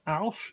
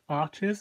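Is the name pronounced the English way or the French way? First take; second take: French; English. First: The name is pronounced the French way. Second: The name is pronounced the English way. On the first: The speaker calls it right. "it is Alche" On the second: The speaker calls it wrong. "not Arches, as many people say it"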